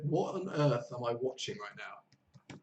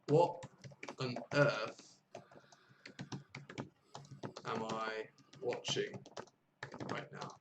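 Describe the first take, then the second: First: Said in the usual way. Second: Broken into short chunks with long pauses; slow word-by-word repetition. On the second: Shown as a demonstration. Teacher repeating the friend's line for learners, slow chunked dictation. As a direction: repeat it slowly for learners, pausing between phrases. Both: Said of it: "She said".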